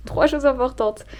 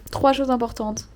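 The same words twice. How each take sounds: First: Louder, higher, slower restatement; emphatic redo. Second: Said in the usual way. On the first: Real, not acted. Vlogger redoes her list of three goals, emphatic. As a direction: say it again with weight on "choses". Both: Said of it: "J'ai fait que deux avec mes doigts".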